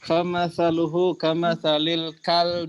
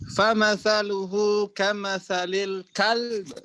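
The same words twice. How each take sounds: First: The final word ends plainly without jolt. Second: The final word ends with a strong jolt. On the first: "kalau yang nggak pakai naber" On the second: "Kak dinaberkan"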